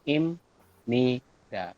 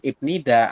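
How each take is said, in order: First: The first syllable ends with an M sound. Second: The first syllable ends with a P sound. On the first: The speaker calls it right. "adalah im, ni, da. Seperti ini" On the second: The speaker calls it wrong. "kita bacanya bukan ip nida"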